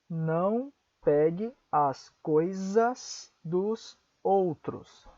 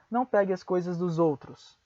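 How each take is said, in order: First: Each word is said slowly and separately. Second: The words are said fast and run together.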